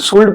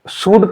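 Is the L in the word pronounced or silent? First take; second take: pronounced; silent. First: The L sound is pronounced. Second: The L sound is silent. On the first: The speaker calls it wrong. "इसको वैसे बोलोगे तो शुल्ड पढ़ोगे, लेकिन शुल्ड नहीं होता" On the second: The speaker calls it right. "इसको शुड पढ़ा जाता है"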